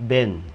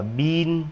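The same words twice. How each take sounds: First: "ben" with a short, lax i. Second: "been" with long ee; long I reading. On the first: Teacher corrects a common misreading, short vowel. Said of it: "nó đọc Y ngắn". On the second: Teacher shows how not to read the second word, long I. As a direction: say "been" as "biin". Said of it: "Nó không đọc là been như trên này". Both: Shown as a demonstration.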